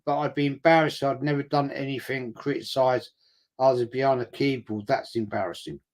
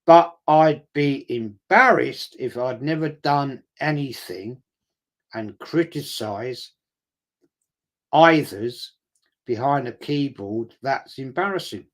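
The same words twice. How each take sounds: First: Said in the usual way. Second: Slow, drawn-out mocking echo of the comment; mocking repeat. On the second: Repeating a critic's comment back to mock him, slow and scornful. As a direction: drag each word out to ridicule the keyboard critic.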